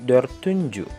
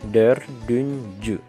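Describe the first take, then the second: First: The sound after the r is a t. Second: The sound after the r is a d. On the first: The speaker calls it wrong. "bukan menjadi" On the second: The speaker calls it right. "tapi dördüncü ... huruf T dirubah menjadi D"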